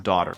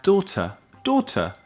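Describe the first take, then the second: First: American "daughter", DAW-der; American "daughter", final r sounded; American English. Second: Higher British "Daughter", DAW-tah; exaggeratedly high British "Daughter", crisp t; British English. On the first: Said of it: "en americano es daughter". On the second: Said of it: "El inglés de Inglaterra suena muy educado". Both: Shown as a demonstration.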